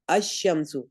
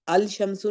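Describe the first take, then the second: First: The L is silent and the sh is doubled. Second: A clear L sound is said before sh. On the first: The speaker calls it right. "लाम पढ़ने में नहीं आता" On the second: The speaker calls it wrong. "अल शमसु नहीं कहते हम"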